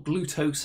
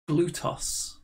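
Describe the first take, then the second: First: Glutos with a long "ose" ending; alternative pronunciation. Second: Glutos with a short "oss" ending; short open o at the end of Glutos; alternative pronunciation. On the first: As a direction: say Glutos to rhyme with "gross". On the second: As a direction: say Glutos to rhyme with "toss". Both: Shown as a demonstration. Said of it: "however you wanna pronounce it".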